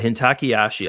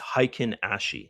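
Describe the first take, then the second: First: It is said with extra sounds, like Hintakeyashi. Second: It is said plainly as Heikin-ashi. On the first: The speaker calls it wrong. "I say it I say it wrong" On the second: The speaker calls it right. "it's Heikin-ashi"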